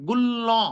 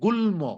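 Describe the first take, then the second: First: The word ends with a doubled L sound. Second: The word ends with L then M. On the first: The speaker calls it wrong. "Grammar অনুযায়ী উচ্চারণ হওয়ার কথা ছিল গুল্ল" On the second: The speaker calls it right. "ম ময়ের মতো উচ্চারণ হবে। এই জন্য এটার উচ্চারণ হবে গুল্ম"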